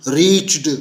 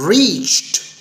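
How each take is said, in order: First: The word ends with a d sound. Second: The word ends with a t sound. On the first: The speaker calls it wrong. "आपने डी की आवाज़ निकालने की कोशिश की और ये गलत तलफ़ुज़ हो गया" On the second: The speaker calls it right. "देखा आखिरी साउंड क्या हुई, ट टाइप की"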